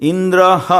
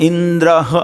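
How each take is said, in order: Both takes have the same delivery.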